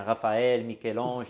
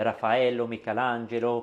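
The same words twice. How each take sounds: First: Said in the usual way. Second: Names said the Italian way; Italian pronunciation. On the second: Shown as a demonstration. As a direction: give the names an Italian accent. (prononciation à l'italienne) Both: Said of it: "comme on dit en italien".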